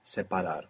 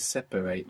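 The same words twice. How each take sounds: First: "Separar" the Spanish way, with a clear A in the middle; A sound in Separar. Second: "separate" the English way, middle vowel like an E; E sound in separate. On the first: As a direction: say "Separar" with a full open A after the p. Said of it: "it's an A". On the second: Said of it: "like an E sound". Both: Shown as a demonstration.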